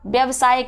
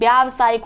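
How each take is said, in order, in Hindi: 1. 'vy' के बाद का स्वर ह्रस्व है। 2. 'vy' के बाद का स्वर दीर्घ है। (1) "नहीं" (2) "होता है"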